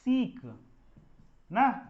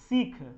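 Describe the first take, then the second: First: The final k is plain, without aspiration. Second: The final k is strongly aspirated. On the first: The speaker calls it right. "इसका real उच्चारण क्या होगा?" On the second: The speaker calls it wrong. "तो ये गलत है, क्योंकि ख का उच्चारण कहीं भी इंग्लिश में नहीं होता है"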